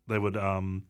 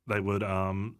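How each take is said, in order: Both takes have the same delivery.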